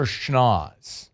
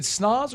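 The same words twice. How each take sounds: First: "schnoz" starting with an sh sound. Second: "snoz" starting with a plain s sound. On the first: Host asking which pronunciation is right, "schnoz" with sh. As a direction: say "schnoz" with sh before the n. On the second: Host asking which pronunciation is right, "snoz" with plain s. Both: Shown as a demonstration. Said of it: "is it snoz or schnoz".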